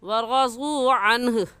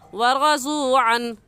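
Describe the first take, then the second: First: The word ends with an audible final h sound. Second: The word ends without a final h sound. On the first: The speaker calls it right. "हा को साकिन करेंगे और हो जाएगा अनह" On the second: The speaker calls it wrong. "अक्सर हजरात ये गलती कर जाते हैं"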